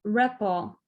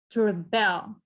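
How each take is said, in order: First: Rebel with REB first and strong; stress on REB. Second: To rebel with BEL stressed. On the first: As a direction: noun rebel, weight on the start. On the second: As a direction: verb rebel, push the end. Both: Shown as a demonstration. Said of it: "You see how sound is different".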